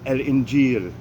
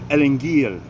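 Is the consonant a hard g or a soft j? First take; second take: soft j; hard g. First: It is said with a soft j sound. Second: It is said with a hard g sound. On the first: "In modern Standard Arabic, the word is" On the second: "pronounced with the Egyptian pronunciation"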